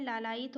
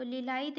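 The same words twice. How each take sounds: First: "लालायित" starting with laa, laa-laa-it; correct form lalait. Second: "लीलायित" starting with li, li-laa-it; wrong form lilait. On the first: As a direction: open "लालायित" on a long a. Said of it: "लालायित होता है". ("लालायित" को ला से शुरू करें) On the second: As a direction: open "लीलायित" on an i vowel. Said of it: "लीलायित नहीं होता है". ("लीलायित" को ली से शुरू करें) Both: Shown as a demonstration.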